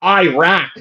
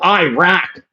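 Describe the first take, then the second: First: It is said with an American accent. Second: The same.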